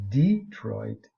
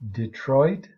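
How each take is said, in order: First: The stress is on the first syllable. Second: The stress is on the second syllable. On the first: This is the vernacular pronunciation. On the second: This is the standard pronunciation. "Standard English"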